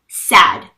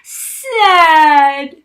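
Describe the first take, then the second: First: The word is said briefly and plainly. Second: The word is stretched out and dramatized. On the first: The speaker calls it right. "But now" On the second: The speaker calls it wrong. "voice dragging... dramatizing them"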